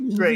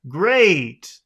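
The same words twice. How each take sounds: First: It sounds flat, unenthusiastic and insincere. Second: It sounds happy, lively and enthusiastic. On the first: The speaker does not really mean it. "It doesn't sound very sincere if you say it like that" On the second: The speaker is genuinely happy. "That sounds like really happy and enthusiastic"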